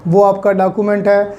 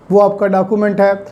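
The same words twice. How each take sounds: The two takes are said the same way.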